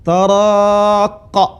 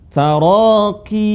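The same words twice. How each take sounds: First: Taraqa ending in a drawn qa; wrong taraqa. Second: Taraqi with a long qi ending; correct taraqi. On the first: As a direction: say the wrong form taraqa slowly. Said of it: "Tapi bukan". (bacaan salah taraqa) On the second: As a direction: end Taraqi on a drawn-out qi. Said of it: "huruf ya yang terakhir". (bacaan benar taraqi) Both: Shown as a demonstration.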